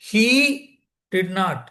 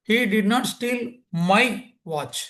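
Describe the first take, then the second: First: The word he carries the main stress. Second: The word my carries the main stress. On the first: Someone other than him did it. "அவன் இல்லை, ஆண் இல்லை" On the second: He stole a different watch. "இந்த மைங்கிற வார்த்தைக்கு importance கொடுத்தேன்"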